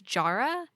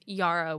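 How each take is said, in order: First: The name begins with a hard J sound. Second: The name begins with a soft, Y-like sound. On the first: This is how one narrator says it. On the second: This is how most others say it.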